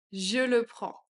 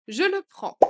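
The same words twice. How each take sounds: First: Said in the usual way. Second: Much higher and louder. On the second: Shown as a demonstration. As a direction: announce it brightly. (beaucoup plus aigu et fort) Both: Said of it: "phrase modelled twice".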